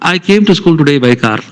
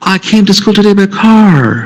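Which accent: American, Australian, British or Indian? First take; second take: Indian; American. First: It is spoken in an Indian English accent. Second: It is spoken in an American English accent. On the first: "You can call it Manglish. Indian English" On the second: "An American will say that"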